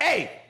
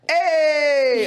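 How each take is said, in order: First: The greeting sounds flat and displeased. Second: The greeting sounds cheerful and upbeat. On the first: The person is in a bad mood. "they're not in a good mood" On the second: The person is in a good mood. "they're happy, they're in a good mood"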